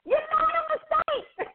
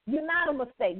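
First: High-pitched, squealed exclamation; emphatic exclamation. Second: Said in the usual way. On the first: Real, not acted. Host playfully exclaiming encouragement to listeners, high squeal. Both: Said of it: "You know I was gonna say it like that".

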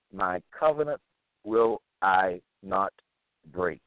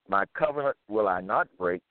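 First: Measured restatement, each word set apart; word-by-word emphasis. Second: Said in the usual way. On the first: Real, not acted. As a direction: repeat it deliberately, one word at a time. Repeats the verse word by word.

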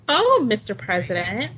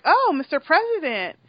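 First: Mock her stiff formality. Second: Prim, formal hello on the phone; formal greeting. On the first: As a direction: parody of her prim phone greeting. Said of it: "trying to act formal". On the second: Retold or imitated. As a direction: greet him stiffly, all business. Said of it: "she's like".

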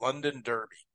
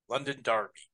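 First: Said in the usual way. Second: Derby said as DAR-bee; London Derby with an AR in Derby; British pronunciation. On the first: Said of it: "I think we say derby here". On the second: Shown as a demonstration. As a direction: make Derby rhyme with Barbie. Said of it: "Maybe it's derby there".

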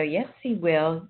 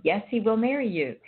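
First: Slow, firm yes, he will; steady, unhurried reassurance with "he" stressed; slow insistence. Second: "marry" lifted high and stressed, falling at the end; second, higher push with the weight on "marry"; higher insistent repeat. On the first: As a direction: lean into "he" and take "Yes, he will." slowly, insisting. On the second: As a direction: press "marry" up high to drive the promise home. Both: Retold or imitated. Reassuring friend, repeated insistence.

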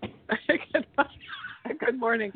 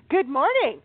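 First: Sleepy husky good morning, slow and half-whispered; froggy just-woke-up voice. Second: High, bright greeting; cheerful good morning. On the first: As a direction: croak it out like you just woke up. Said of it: "This is my froggy, I just woke up voice". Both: Real, not acted.

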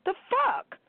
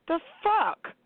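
First: High, incredulous "The fuck?" squeaked up; sharp high-pitched disgusted question; outraged disbelief. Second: High, incredulous "The fuck?" with a falling end; a high, falling, disbelieving "The fuck?"; outraged disbelief. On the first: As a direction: jump way up in disbelief at the idea. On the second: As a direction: ask it in real disgust, pitched up. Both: Real, not acted. Outraged rant about grown men.

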